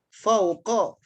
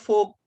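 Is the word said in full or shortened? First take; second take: full; shortened. First: The word is said in full, two syllables. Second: The word is shortened to one syllable. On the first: This is the standard form. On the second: This is how local people say it.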